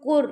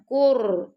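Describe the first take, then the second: First: The r is soft with no repeated tap. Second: The r is trilled with repeated taps. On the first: The speaker calls it right. "रा को अपने नरमी से पढ़ना है" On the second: The speaker calls it wrong. "ऐसे नहीं पढ़ना ... तकरार नहीं आनी चाहिए"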